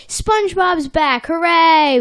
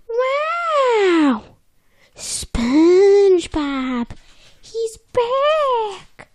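First: Milder cheer. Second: High excited shout; over-the-top excited. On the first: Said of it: "he doesn't say it like that". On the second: Fish at the window spotting SpongeBob, loud excited shout. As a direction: shriek it out as a thrilled fish. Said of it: "Okay, he doesn't say it like that". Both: Retold or imitated.

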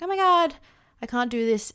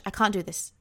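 First: Half-hearted mock wail to her partner; mock panic. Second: Mild despairing murmur. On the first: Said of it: "just been like". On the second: Retold or imitated. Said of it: "my brain just raced and it just went".

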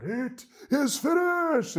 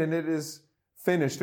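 First: High, slow, dramatic cry; loud dramatic shout. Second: A calm, content close, no drama; satisfied, not shouted. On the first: Preacher imitating film depictions of the cross, loud dramatic shout. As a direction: belt it out like a movie Jesus on the cross. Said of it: "in a loud, dramatic voice, shouts out". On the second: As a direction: say it like a son telling his dad the job is done. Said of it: "I really see a different tone of voice". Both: Retold or imitated.

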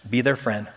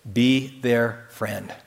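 First: Said in the usual way. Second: Drawn out slow and soft, each word apart; very slow soft repeat. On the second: Shown as a demonstration. Preacher repeating his urging to the congregation, slower and softer. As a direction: let it sink in gently.

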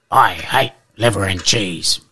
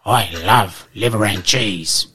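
First: Lightly voiced big dog; a hint of a blunt Boxer dog. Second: Lightly voiced big dog, slow; a hint of a slow, dopey Rottweiler. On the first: Boxer answers the poodle. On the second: Rottweiler answers the poodle.

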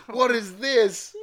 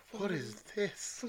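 First: High, loud, drawn-out exclamation; mock horror. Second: Higher, soft, drawn-out question; hushed horror. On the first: Reader voices Severus gazing at the monstrosity, mock horror. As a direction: stretch it out in exaggerated horror. Horrified character reacts to the sweater. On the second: Acted. Reader redoes Severus's line after whispering with horror, hushed. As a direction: ask it slowly under your breath, aghast.

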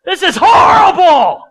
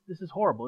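First: High, loud, slow outburst of frustration; venting complaint. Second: Soft, steady, resigned admission; calm acceptance. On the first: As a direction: shout it out, fed up and indignant. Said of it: "I would vent". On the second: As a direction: say it quietly, accepting the discomfort. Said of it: "And I'm gonna say". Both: Acted.

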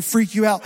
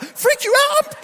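First: Said in the usual way. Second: High, incredulous shriek; panicked shout. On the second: Retold or imitated. Driver echoes worker's apology about spider, shrieked panic. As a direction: throw it back as a hysterical shout.

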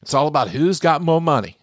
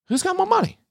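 First: Said in the usual way. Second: Mock squeaky question. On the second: Mocking rich people's money obsession, squeaky high mock. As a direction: jump way higher into a silly squeak.

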